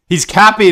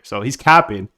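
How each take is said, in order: First: Higher, louder playful call-out; mock call-out. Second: Said in the usual way. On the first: Real, not acted. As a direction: call out his cap like calling out a friend. Repeats it teasing a viewer.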